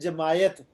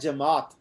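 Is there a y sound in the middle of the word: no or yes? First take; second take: yes; no. First: A y sound is said in the middle. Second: No y sound is said in the middle. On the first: The speaker calls it wrong. "ये गलत है" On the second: The speaker calls it right. "लफ्ज़ है जमात"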